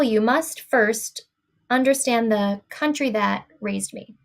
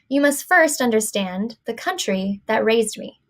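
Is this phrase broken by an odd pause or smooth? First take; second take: broken; smooth. First: The phrase is broken by an unnatural pause. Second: The phrase flows smoothly without an odd pause. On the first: The speaker calls it wrong. "this one that is all messed up" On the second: The speaker calls it right. "should be read the good way here"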